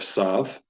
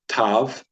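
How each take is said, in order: First: The letter name begins with an S sound. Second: The letter name begins with a T sound. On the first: "instead of sav" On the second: "we're going to call this tav"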